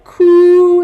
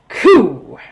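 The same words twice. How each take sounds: First: The pitch stays high and level throughout. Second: The pitch falls sharply from high to low. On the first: It means cry. "cries is a high tone" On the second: It means cool. "your voice goes down"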